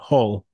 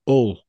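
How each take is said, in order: First: It is said as it is spelled. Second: It is said the local way. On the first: "as it's spelt" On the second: "as it's known over there"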